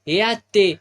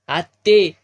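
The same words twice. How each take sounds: First: ए आत्ते called out loud with the stress on आत्ते; louder repeat call. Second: Calling out loudly across the house. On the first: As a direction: call her again, leaning on आत्ते. Calling the old woman again. (आत्ते वर जोर देत पुन्हा मोठी हाक) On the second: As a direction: shout her name to reach the next room. Calling the old woman inside. (मोठ्याने हाक मारत) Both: Acted.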